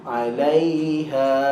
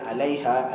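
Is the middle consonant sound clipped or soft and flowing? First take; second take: soft; clipped. First: The middle sound is soft and slightly drawn out. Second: The middle sound is clipped, without softness. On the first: The speaker calls it right. "dilirikkan sikit ha, bunyi dia" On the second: The speaker calls it wrong. "jangan alaiha, alaiha, itu tak ada rakhawah"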